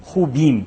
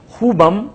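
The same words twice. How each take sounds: First: خوبیم said plainly with a falling end, stressing the یم; pronunciation contrast. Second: خوبم said loud and high with a rise; pronunciation contrast. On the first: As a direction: set خوبیم against خوبم. (خوبیم کو عام لہجے میں، آخر میں گرتی آواز) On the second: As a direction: hit خوبم hard to contrast it with خوبیم. (خوبم کو بلند اور اونچی آواز میں) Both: Shown as a demonstration. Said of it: "فرق یہ ہے".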